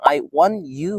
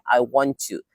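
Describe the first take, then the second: First: The t and y sounds are kept separate. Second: The t and y blend into a ch sound.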